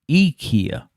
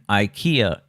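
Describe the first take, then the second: First: The first vowel sounds like 'ee'. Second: The first vowel sounds like 'eye'. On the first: The speaker calls it right. "It's actually pronounced IKEA" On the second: The speaker calls it wrong. "the pronunciation IKEA is incorrect"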